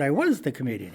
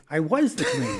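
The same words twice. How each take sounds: First: "was" stressed, voice near usual pitch. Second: "was" hit hard, much higher and louder; insistent repeat. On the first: Comic telling a passenger he performed, stress on "was". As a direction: put the weight on "was", measured correction. Correcting man who missed him. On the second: Comic correcting the passenger once more, high, insistent "was". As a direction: push "was" up high in mock exasperation. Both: Retold or imitated.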